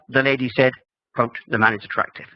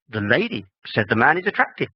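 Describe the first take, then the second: First: The first pause comes right after 'said'. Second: The first pause comes right after 'lady'. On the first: The man is the attractive one. "In the second one, ... quote" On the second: The lady is the attractive one. "in the first example, ... It's the lady"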